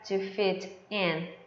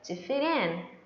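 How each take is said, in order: First: The t is a clear, separate t sound. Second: The t links to 'in' sounding like r. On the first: The speaker calls it wrong. "Não fica to fit in" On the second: The speaker calls it right. "Fica to fit in. ... esse t vai ter um som de r"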